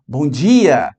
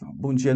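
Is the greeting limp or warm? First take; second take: warm; limp. First: It is said warmly and enthusiastically. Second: It is said in a limp, listless way.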